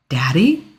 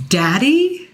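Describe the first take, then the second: First: Shaky, stunned question; barely holding together as she asks; a trembling Daddy?; tremor in the voice. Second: Daddy? asked higher and louder. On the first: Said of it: "my voice coming out with a tremor". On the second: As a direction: demand it, hurt and shocked. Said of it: "louder this time". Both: A narrator's reading.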